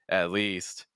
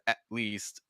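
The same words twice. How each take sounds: First: The held T flows smoothly into the next word. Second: The T is a complete, abrupt stop of breath. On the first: The speaker calls it right. "It's still going to be slightly smoother" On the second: The speaker calls it wrong. "it's not like a glottal like complete stop"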